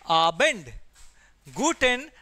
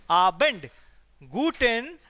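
Both takes have the same delivery.

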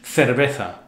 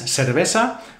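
First: The c and z sound like English th. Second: The c and z sound like s. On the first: "would be in standard Spanish" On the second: "how I would pronounce it because I live here in the Canary Islands"

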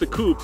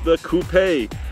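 First: Coupe is said the American way, one syllable. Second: Coupe is said the British way, coupé.

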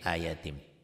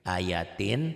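First: The word ends with an m sound. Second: The word ends with an n sound. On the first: "tin jadi tim gitu ya" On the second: "Tanwin itu n"

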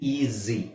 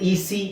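First: The middle consonant is a buzzing z. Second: The middle consonant is a hissing s. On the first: The speaker calls it right. "ಈ ಜಿ" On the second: The speaker calls it wrong. "ಈ ಸಿ ಅಂತ ಹೇಳಲ್ಲ"

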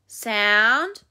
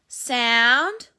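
Both takes have the same delivery.

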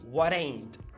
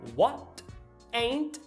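First: The t in 'what' is a quick flap. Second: The t in 'what' is a clear t.

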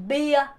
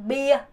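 The two takes are said the same way.

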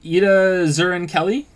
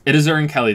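First: The name is said hesitantly, without confidence. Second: The name is said firmly, with confidence. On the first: The speaker calls it wrong. "I wasn't saying it confidently enough" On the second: The speaker calls it right. "There you go"

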